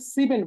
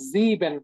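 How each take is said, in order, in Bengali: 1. শব্দটি হিসহিসে s ধ্বনি দিয়ে শুরু। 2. শব্দটি গুনগুন করা z ধ্বনি দিয়ে শুরু। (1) "আমরা কিন্তু এটাকে সিবেন বলতেছি না" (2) "সেভেন কে কিন্তু আমরা বলতেছি জিবেন"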